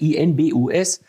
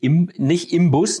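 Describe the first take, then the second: First: The consonant before the b is an n. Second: The consonant before the b is an m. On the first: The speaker calls it right. "sondern die heißt INBUS" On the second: The speaker calls it wrong. "die heißt nicht Imbus, ne? Ich sitze im Bus"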